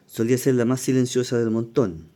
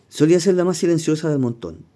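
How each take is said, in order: First: Said in the usual way. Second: Reads the quote higher and louder. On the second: Retold or imitated. Teacher reading a singer's words to the class, louder and higher. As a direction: lift the quote above the title read.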